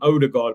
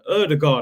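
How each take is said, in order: First: The name begins with an 'oh' sound. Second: The name begins with an 'er' sound. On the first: This is the speaker's own habitual way of saying it. "I'm still calling him Odegaard" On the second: This is how others say the name. "I think that's how you pronounce it"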